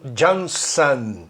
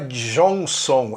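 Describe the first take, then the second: First: The final syllable sounds like 'an'. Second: The final syllable sounds like 'on'. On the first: The speaker calls it right. "é John, Johnson" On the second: The speaker calls it wrong. "Não é Johnson"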